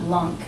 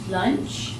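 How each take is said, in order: First: The word ends with a k sound. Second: The word ends with a ch sound. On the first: The speaker calls it wrong. "not lunk" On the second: The speaker calls it right.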